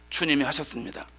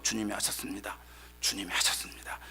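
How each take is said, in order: First: Said in the usual way. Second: Soft low whisper to oneself; said inwardly. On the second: Retold or imitated. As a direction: murmur it under the breath. (속으로 조용히 되뇌는 고백) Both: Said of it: "속으로 열면서".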